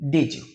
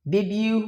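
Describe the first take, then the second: First: Did you as "didju"; didju, D and Y fused. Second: Said in the usual way. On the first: Shown as a demonstration. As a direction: blend D and Y into J. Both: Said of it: "okay?".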